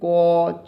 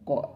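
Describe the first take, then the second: First: The consonant is said with a short vowel after. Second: The consonant is said with no following vowel. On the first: This is the full letter with its inherent vowel. "अ लगा है तभी हम लोग क च ट ऐसे पढ़ते हैं" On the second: This is the half letter without its inherent vowel. "आधा क हो जाएगा ... इसका उच्चारण ऐसे होगा"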